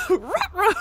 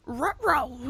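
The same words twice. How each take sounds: First: "Ruh-roh" shouted higher through a laugh; laughing cartoon dog. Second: A light cartoon-dog "Ruh-roh" dropping at the end; lightly voiced goofy dog worry. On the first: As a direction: crack up mid cartoon-dog line. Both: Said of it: "pitch perfect Scooby-Doo".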